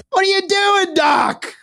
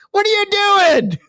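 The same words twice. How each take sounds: First: Much higher hammed-up yell at the doc; mock shout. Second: Much higher, slow yell breaking into laughter; laughing mock shout. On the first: Yelling at the surgeon on screen, mock outraged shout. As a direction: shriek at the doctor in fake outrage. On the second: Repeating his yell at the surgeon, laughing through it. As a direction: yell it again but crack up.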